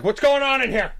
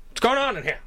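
First: Loud, high bossy cop. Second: High, loud 1930s beat cop; old-timey cop. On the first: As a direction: barge in like a cop. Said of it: "I pretended to be the cops". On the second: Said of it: "old-timey cop". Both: Retold or imitated.

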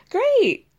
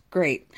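First: High, loud mock-bright Great; sarcastic great. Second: Said in the usual way. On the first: [name] answering Joel's confession with mock sarcasm. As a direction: fake cheer over hurt.

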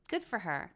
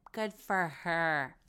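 First: Said in the usual way. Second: "Good for her" slowed right down with weight on "Good"; a deliberate, sardonic "Good for her"; slow emphatic. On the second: Shown as a demonstration. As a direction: drag out "Good for her" with a dry, pointed edge.

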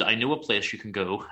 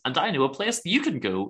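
First: Said in the usual way. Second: "you" picked out higher, with a falling tune; stress on YOU. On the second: Retold or imitated. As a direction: lean on "you" to turn the offer back. Snub turning the invitation round.

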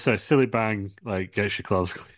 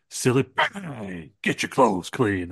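First: Said in the usual way. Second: Slow, drawn-out advert pitchman; audition slogan read. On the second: Acted. Wrestler auditioning for a cleaning advert, hammed-up slogan. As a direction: stretch the slogan out like a TV ad. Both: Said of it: "you're gonna read for this".

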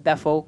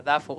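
First: "Dafoe" said da-FOE, stress at the end; accepted pronunciation. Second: "Dafoe" said DAFF-oh, stress at the start; mistaken pronunciation. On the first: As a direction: say "Dafoe" with stress on the second syllable. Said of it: "No, en realidad sí es Dafoe". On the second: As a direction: say "Dafoe" with stress on the first syllable. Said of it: "yo pensaba antes que era Dafoe". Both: Retold or imitated.

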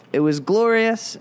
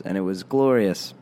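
First: Glorious sung out high and stretched; stress on glorious. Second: Said in the usual way. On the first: Real, not acted. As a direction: lift glorious up high and draw it out. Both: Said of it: "you already said glorious".

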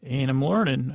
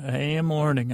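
First: Said in the usual way. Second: "am" said in full and stressed; uncontracted, emphatic "am". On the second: Shown as a demonstration. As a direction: lean on the word "am". Restates it with emphasis.

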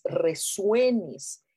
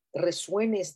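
First: Said in the usual way. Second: Resuenes stretched long and slow, each syllable held; drawn out slowly. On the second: Shown as a demonstration. Guiding her viewers, she stretches resuenes slowly. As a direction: let resuenes hang in the air. Repeats the key word slowly.

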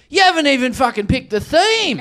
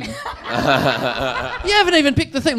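First: High, outraged heckler's yell; retold scream. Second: Said in the usual way. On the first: Woman in fancy dress berates the comic, mock screaming. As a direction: imitate a woman screaming a complaint. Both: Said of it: "one woman screams at me".

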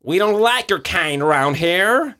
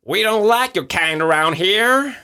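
First: Slow, higher American drawl; second try at a tough Texan; American accent. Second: Put-on slow, higher, louder American accent; a hostile Texan local. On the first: Acted. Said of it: "Kan jeg prøve en gang til?". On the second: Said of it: "Det er min amerikansk".

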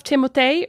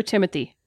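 First: "Timothée" said the French way, ending in -ay; French-style pronunciation. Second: "Timothy" said the English way, ending in -thee; "Timothy" as the plain English name; English pronunciation. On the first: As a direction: say "Timothée" with a final "tay". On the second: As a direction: say "Timothy" with a soft th. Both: Shown as a demonstration. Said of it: "Timothée or Timothy".

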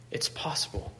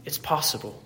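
First: "It's possible" breathed out as a soft whisper; Paul's whispered reassurance to the church; whispered echo. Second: Said in the usual way. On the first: Acted. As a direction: repeat it under your breath. Echoed as a whisper.

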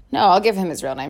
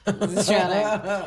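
First: Said in the usual way. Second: "his real name" said very slowly, with weight on "real"; slow, deliberate "his real name"; drawn out. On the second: Shown as a demonstration. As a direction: stretch out "real name" with a falling tune. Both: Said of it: "Well, his real name".

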